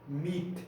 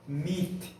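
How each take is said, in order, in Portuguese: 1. A palavra termina forte no som do t. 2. A palavra termina forte no som do t.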